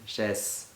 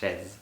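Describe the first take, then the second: First: The middle consonant is a hissing S sound. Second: The middle consonant is a buzzing Z sound. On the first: This is how a struggling reader says it. The speaker calls it wrong. "it tends to read it chaise, which is wrong" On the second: This is the correct pronunciation. The speaker calls it right. "It's chaise"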